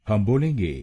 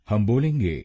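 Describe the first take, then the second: Both takes have the same delivery.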